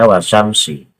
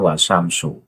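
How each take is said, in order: First: The word ends with an i vowel. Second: The word ends with a u vowel. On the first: The speaker calls it wrong. "Pak Lutfi itu kan membaca wasyamsi" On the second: The speaker calls it right. "padahal yang tepat adalah wasamsu"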